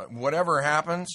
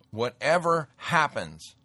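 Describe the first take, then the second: First: Said in the usual way. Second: "whatever happens" repeated slowly, with weight on "whatever" and a falling end; slow emphatic repeat. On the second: Shown as a demonstration. Warning listeners it's gonna get nutty, slow emphatic repeat. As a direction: lean on "whatever" and let the line drop.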